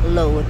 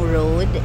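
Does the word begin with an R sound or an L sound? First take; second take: L; R. First: The word begins with an L sound. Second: The word begins with a clear R sound.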